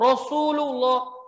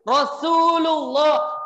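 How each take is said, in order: First: Rasulullah said slowly with a light, thin s; careful Rasulullah, thin clear sin; correct thin sin. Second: Rasulullah said with a thick emphatic s; Rasulullah with the s darkened toward sod; wrong heavy sad. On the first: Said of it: "bukan Rasulullah". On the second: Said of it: "Itu sinnya nanti berubah menjadi sod". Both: Shown as a demonstration.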